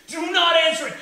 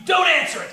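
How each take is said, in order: First: "Do not answer it" with each word set apart; stress on NOT. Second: "don't answer it" punched louder; emphatic warning. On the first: Comic repeating his warning, "Do not" stressed word by word. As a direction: spell out "Do not", leaning on "not". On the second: Comic warning the audience, "don't answer it" said forcefully. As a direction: hit "don't" hard. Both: Acted.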